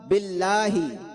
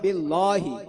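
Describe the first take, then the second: First: The l sound is light and thin. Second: The l sound is heavy and full. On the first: The speaker calls it right. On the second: The speaker calls it wrong.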